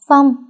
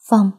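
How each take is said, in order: First: His name cried out louder in panic; crying out. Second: First tearful call of his name, still held back. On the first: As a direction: shout his name as he collapses. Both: A narrator's reading. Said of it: "nước mắt không ngừng tự chủ rơi lã chã".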